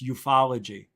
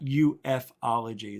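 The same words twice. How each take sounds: First: It is said as U F O plus ology. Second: It is said as the letters U F plus ology. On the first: It means the study of UFOs. The speaker calls it right. "it's ufology" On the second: It would mean the study of unidentified flying. The speaker calls it wrong. "it's not ufology"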